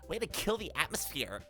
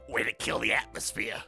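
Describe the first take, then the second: First: It is said in a clear, plain voice. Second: It is said in a raspy chain-smoker voice.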